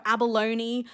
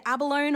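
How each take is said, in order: First: "abalone" ending in "LOH-nee"; alternative pronunciation. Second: "abalone" ending in a plain "lone"; usual pronunciation. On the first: Explaining two ways to say a shell name, "abalone" ending in "nee". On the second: Explaining two ways to say a shell name, "abalone" ending like "alone". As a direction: say "abalone" as ab-a-LONE, silent final e. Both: Shown as a demonstration. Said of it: "whether you say it abalone or".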